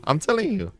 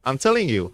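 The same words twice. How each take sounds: First: "telling" said much higher in an insistent repeat. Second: Said in the usual way. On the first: Real, not acted. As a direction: push "telling" up high to insist.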